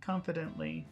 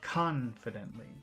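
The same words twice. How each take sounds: First: The word is said plainly, without extra emphasis. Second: The word is said with strong, focused emphasis. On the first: "normal confidently" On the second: "focus confidently"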